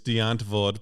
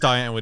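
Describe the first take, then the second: First: The name is said with Afrikaans pronunciation. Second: The name is said as English spelling suggests.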